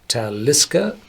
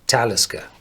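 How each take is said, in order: First: The stress is on the second syllable. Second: The stress is on the first syllable. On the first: It follows the Gaelic naming pattern. The speaker calls it wrong. "all the Gaelic names you pronounce on the second syllable" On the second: It follows the Nordic naming pattern. The speaker calls it right. "you pronounce on the first syllable"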